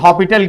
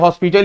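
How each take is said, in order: First: The name is said without an s sound. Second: The name is said with an s sound. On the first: "कुछ लोग हॉपिटल कहते हैं" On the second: "एल हॉस्पिटल ही बोला जाता है basically"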